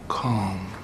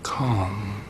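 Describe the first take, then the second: First: "calm." said softly, M hummed out and let go; "calm." with the final M drawn long and fading. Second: Said in the usual way. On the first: Shown as a demonstration. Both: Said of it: "and let the M go".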